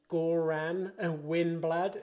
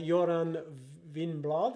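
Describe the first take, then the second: First: The name is read with English spelling sounds. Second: The name is said with Norwegian pronunciation. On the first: The speaker calls it wrong. "is how it would look for for us people" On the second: The speaker calls it right. "is is how you pronounce it"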